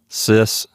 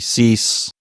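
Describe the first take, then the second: First: The i vowel is short. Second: The i vowel is long.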